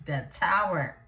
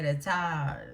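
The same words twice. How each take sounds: First: "tower" slowly said in full, "TOW-er"; slow down and sound both syllables of "tower"; careful correction. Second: "tower" run down to "tah"; accent slipping. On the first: Reader fixes her slip on the Tower card, "tower" slow and full. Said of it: "let me slow down". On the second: Reader's accent slips on the Tower card, "tower" slurred to "tah". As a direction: let "tower" lose its ending, sounding like "tah". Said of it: "I'll lose my English accent". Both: Real, not acted.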